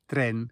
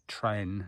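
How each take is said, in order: First: The E vowel sounds Spanish-like. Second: The E vowel sounds English-like. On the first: The speaker calls it right. "instead of" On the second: The speaker calls it wrong. "I used to have real problems saying the E, and I'd say"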